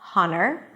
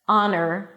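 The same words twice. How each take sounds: First: The word starts with an audible H sound. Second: The word starts with a vowel, no H. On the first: The speaker calls it wrong. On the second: The speaker calls it right. "the H is there in the spelling, but is absolutely not pronounced"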